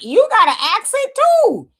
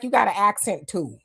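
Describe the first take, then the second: First: Much higher, louder, slowed mocking retort; mocking comeback. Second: Said in the usual way. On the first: Pulled-over man turning the accent jab back on the officer, high slow mock. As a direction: toss it back high and slow, teasing the cop. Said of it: "And it was like". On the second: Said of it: "And he was like".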